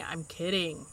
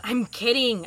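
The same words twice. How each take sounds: First: Lower, softer reassurance; soft, low retraction; quiet backing down. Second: Said in the usual way. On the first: Acted. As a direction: drop the voice to back off. Backing off after a rebuke.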